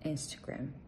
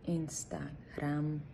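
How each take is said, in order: First: The stress is on the first syllable. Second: The stress is on the last syllable. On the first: The speaker calls it right. "перемістити наголос вперед" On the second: The speaker calls it wrong. "ставимо наголос на останньому складі"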